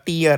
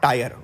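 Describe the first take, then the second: First: The vowel sounds like the word 'ear'. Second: The vowel sounds like the word 'ire'. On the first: The speaker calls it right. "it is pronounced as uh, tier" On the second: The speaker calls it wrong. "not tire"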